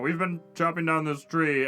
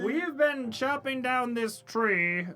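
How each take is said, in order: First: It is said in a lowered, deeper voice. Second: It is said in a normal-pitched voice. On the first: The speaker calls it right. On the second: The speaker calls it wrong.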